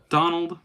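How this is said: It is said in a Mickey Mouse voice.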